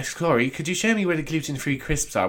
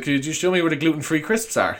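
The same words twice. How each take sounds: First: Lightly affected fake posh accent; mock a customer's put-on posh accent; polite request in a fake accent. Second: Said in the usual way. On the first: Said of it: "Which is not an accent". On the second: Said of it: "she's like".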